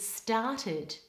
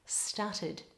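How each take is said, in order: First: The first vowel is a long ar sound. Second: The first vowel is short, like stut. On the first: The speaker calls it right. "make sure you're getting a long R vowel there" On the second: The speaker calls it wrong. "started sounds more like stuttered"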